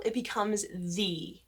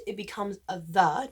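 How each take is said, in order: First: "the" said "thee", slow. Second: "the" said "thuh", short and light. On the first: Teacher showing "the" before a vowel. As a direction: say "the" with a long ee. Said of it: "before a vowel". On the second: Teacher showing "the" before a consonant. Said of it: "before a consonant". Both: Shown as a demonstration.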